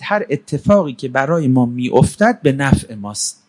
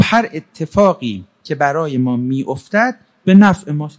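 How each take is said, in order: First: Said in the usual way. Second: Slowed-down, deliberate delivery; deliberate repeat. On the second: Acted. Asked to repeat the motto.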